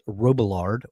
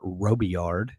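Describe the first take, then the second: First: The L sounds in the name are pronounced. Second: The L sounds in the name are silent. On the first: "if you can pronounce the L's or not" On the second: "speak French or not"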